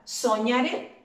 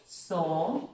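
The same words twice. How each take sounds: First: Said in the usual way. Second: "Soñaré" in separate syllables with long pauses, lower. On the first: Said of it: "Es una palabra aguda". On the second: Shown as a demonstration. Teacher writing the word out, "Soñaré" syllable by syllable. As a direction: break "Soñaré" into so, ña, ré, pausing between. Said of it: "La voy a escribir".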